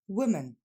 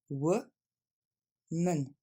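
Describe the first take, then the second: First: The word is said quickly in one go. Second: The word is split into separate syllables. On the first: "Plus rapidement" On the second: "On va le décomposer"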